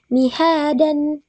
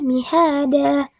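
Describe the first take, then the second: First: The word ends with an n sound. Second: The word ends with a long vowel. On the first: The speaker calls it wrong. "yang akan salah jika kita membacanya dengan mihadan" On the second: The speaker calls it right. "tapi mihada"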